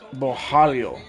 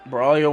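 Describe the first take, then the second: First: The middle consonant is sounded as an H. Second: The middle consonant is sounded as an R. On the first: The speaker calls it right. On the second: The speaker calls it wrong.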